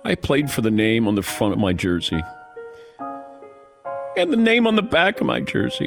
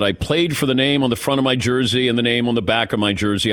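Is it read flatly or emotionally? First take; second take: emotionally; flatly. First: It is read with more emotion and feeling. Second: It is read flatly, without much feeling.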